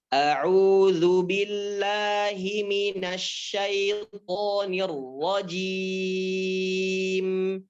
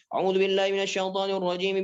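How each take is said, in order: First: It is recited slowly and deliberately. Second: It is recited quickly and run together. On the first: "bacaan yang lambat itu seperti ini" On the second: "bacaan cepat itu"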